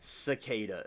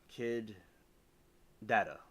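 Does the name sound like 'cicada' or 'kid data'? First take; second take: cicada; kid data. First: The name sounds like the insect word cicada. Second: The name sounds like the words kid data. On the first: The speaker calls it wrong. "That's why I say it the way I I say it" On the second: The speaker calls it right. "I think I got it right"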